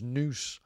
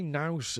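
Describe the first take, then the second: First: The word is said with a Scottish-sounding pronunciation. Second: The word is said with a Liverpool pronunciation.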